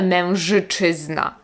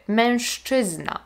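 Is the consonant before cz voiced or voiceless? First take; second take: voiced; voiceless. First: The sound before cz is a voiced zh. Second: The sound before cz is a voiceless sh. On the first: The speaker calls it wrong. "Nie mówimy" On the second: The speaker calls it right. "słyszymy to jak szy"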